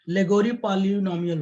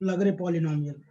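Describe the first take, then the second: First: The name is said as three syllables, 'leh-go-ree'. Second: The name is said as two syllables, 'lug-ray'.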